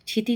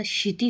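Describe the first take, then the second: First: क्षिति starting with "chh", chhiti; wrong pronunciation. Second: Said in the usual way. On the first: Shown as a demonstration. Teacher rejecting a mistake, क्षिति said chhiti. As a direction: begin क्षिति as chhi, not shi. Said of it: "नहीं होता". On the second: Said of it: "होता है".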